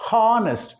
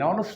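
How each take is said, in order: First: The word begins with an h sound. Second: The word begins with a vowel sound. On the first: The speaker calls it wrong. "It is not honest" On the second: The speaker calls it right. "H is silent"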